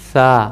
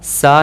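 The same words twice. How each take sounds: First: It starts with the tongue between the teeth. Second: It starts with a hissing s sound. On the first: The speaker calls it right. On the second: The speaker calls it wrong.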